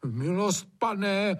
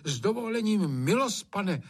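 First: Aghast servant begging his master, pitched high; raised, appalled appeal; horrified plea. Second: Deferential servant speaking up, pitched high; raised-pitch, humble interjection; daring to object. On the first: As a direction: plead in shock with the master. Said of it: "zhrozil se Hajný". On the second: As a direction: politely dare to interrupt the master. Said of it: "opovážil se Hajný nemlčet". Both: A narrator's reading.

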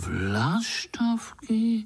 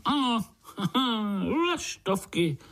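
First: High, long-drawn question of disbelief; astonished. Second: High, amused yes with a laugh; chuckling confirmation. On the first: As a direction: stretch the word out in wonder. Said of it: "podivili se pavoučci kolem". (udiveně, vysoko a protáhle) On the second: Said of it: "pokýval hlavou strýček". (pobavené přitakání se smíchem) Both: A narrator's reading.

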